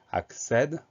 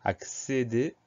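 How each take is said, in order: First: Accède with an open "è" in the last syllable; Accède ending on open "sèd"; grave-accent E. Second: Accéder with closed "é" sounds, "ak-sé-dé"; Accéder ending on closed "sé-dé"; acute-accent E. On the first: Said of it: "accent grave". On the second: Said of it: "accent aigu". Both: Shown as a demonstration.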